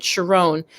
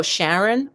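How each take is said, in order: First: "Sharon" as shuh-ROHN, stress at the end; less common name pronunciation. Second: "Sharon" as SHARR-un, stress up front; common mispronunciation. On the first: Shown as a demonstration. Giving an example of a misread name, "Sharon" said shuh-ROHN. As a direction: say "Sharon" with a long o in the second syllable. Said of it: "I might be mispronouncing it". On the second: Retold or imitated. People mishearing the name, "Sharon" said SHARR-un, questioning. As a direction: say "Sharon" with a short unstressed ending, as a question. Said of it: "you say that name and people go".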